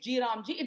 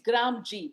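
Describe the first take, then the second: First: It is said as three parts: G, Ram, Ji. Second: It is said as two parts: Gram, G. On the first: The name is altered to invoke a deity. The speaker calls it wrong. "don't change names and say it's G Ram Ji" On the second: The name is read as the official acronym. The speaker calls it right. "That's how the pronunciation is"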